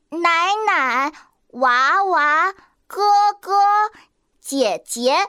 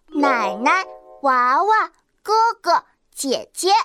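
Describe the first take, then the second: First: The second syllables carry full tones. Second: The second syllables carry neutral tones. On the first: The speaker calls it wrong. "这样念好奇怪啊！" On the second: The speaker calls it right. "我们平时都是说"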